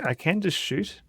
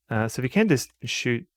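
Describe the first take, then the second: First: High-pitched, goofy mock eagerness; a playful high voice for "just shoot"; mock eager. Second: Said in the usual way. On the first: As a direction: pitch it up like a trigger-happy kid. Mock suggestion before shooting.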